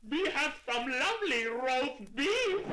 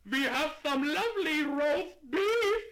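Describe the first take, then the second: First: Shout. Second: High, loud, slow shopkeeper; slow and loud to a deaf customer. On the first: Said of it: "he shouted in a voice so loud". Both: Acted.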